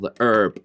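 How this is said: The word is said the American way.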